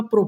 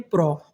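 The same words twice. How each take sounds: First: प्रो with a closed "oh" vowel; wrong reading. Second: प्रो with an open "aw" vowel; correct reading. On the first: Teacher showing the reading to avoid, प्रो as "proh". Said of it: "ना प्रो पढ़ते हैं". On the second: Teacher giving the right reading, प्रो as "praw". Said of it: "इसे क्या पढ़ते हैं". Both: Shown as a demonstration.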